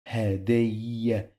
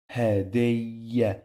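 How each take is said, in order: Both takes have the same delivery.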